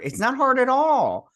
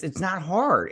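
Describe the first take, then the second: First: High and loud, exasperated; emphatic. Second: Said in the usual way. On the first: Real, not acted. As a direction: push it out, fed up. Insisting it's easy.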